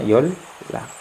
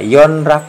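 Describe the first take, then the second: First: The first syllable ends in an l sound. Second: The first syllable ends in an n sound. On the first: The speaker calls it right. "Maka ini bacanya yol lak" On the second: The speaker calls it wrong. "ini kalau dibaca yon rak itu salah"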